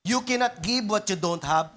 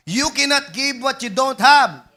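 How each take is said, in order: First: Said in the usual way. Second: Said again louder, landing hard on "have"; preacher repeats the line to the congregation, louder and punchier; louder emphatic repeat. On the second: Shown as a demonstration. Louder repeat with a falling "have" for emphasis. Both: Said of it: "Ulitin ko".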